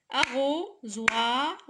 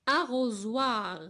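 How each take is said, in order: First: "Arrosoir" slowly split as ARRO, SOI, R; syllable by syllable. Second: Said in the usual way. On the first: Shown as a demonstration. Teacher counting syllables for pupils, "Arrosoir" slowly broken up. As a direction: beat out "Arrosoir" slowly with pauses between syllables. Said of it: "trois syllabes". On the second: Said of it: "avant de frapper les syllabes".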